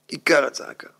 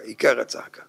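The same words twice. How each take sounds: First: Said in the usual way. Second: Whispered emphasis. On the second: Shown as a demonstration. Rabbi confiding the key point to listeners, whispered. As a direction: whisper עיקר הצעקה low and breathy. Whispered then repeated voiced.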